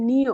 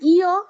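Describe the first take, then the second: First: The letter name begins with an n sound. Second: The letter name begins without an n sound. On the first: The speaker calls it wrong. "এরা বলে নিয়" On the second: The speaker calls it right. "বলি ইয়"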